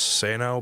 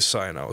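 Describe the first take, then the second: First: The first vowel sounds like 'ah'. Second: The first vowel sounds like 'eye'. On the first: The speaker calls it wrong. "I thought it was supposedly pronounced Sano" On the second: The speaker calls it right. "it's really Sino"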